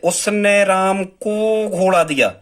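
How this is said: The word राम carries the stress. "मतलब हम राम पे जोर दे रहे हैं"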